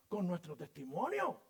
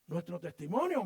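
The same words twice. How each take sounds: First: Said in the usual way. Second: „testimonio” said louder with a falling end; stressed repeat. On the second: Shown as a demonstration. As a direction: hammer home „testimonio” louder.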